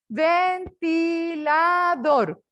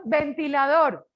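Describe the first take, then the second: First: "Ventilador" very slow, each of its four syllables held. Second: Said in the usual way. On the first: Shown as a demonstration. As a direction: count out "Ventilador" as ven-ti-la-dor, stretched and separate. ("Ventilador" muy despacio, separado en cuatro sílabas) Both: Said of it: "Cuatrisílaba".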